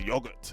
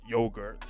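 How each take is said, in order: First: It is said with a British pronunciation. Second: It is said with an American pronunciation. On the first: This is the form taught at school in London. The speaker calls it right. "teachers are telling me to say like it's yogurt" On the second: This is the form used where the speaker grew up. The speaker calls it wrong. "not yogurt"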